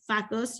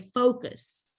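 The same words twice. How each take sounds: First: The first syllable has a short 'fuh' vowel. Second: The first syllable has a long 'foe' vowel. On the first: The speaker calls it wrong. "We don't say focus because they would say that the first part of it and it sounds dirty" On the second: The speaker calls it right. "you say focus"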